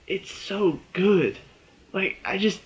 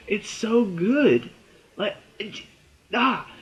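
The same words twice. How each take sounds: First: Long, drawn-out high "It's so good"; swooning over a favorite show; drawn-out gush. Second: Slow, stretched, higher "It's so good"; fangirling, stretched and higher; swooning gush. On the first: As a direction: savor every word of "It's so good". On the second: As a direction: melt into "It's so good" even more. Gushing over the show. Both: Real, not acted.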